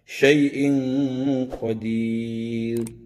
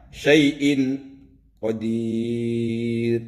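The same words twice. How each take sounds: First: The n sound is blurred into a nasal hum. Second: The n sound is pronounced clearly and distinctly. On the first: The speaker calls it right. "Harus dibaca samar karena ini bacaan ikhfa" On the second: The speaker calls it wrong. "Tidak boleh dibaca terang atau jelas. Misalnya syai'in qadir, tidak boleh"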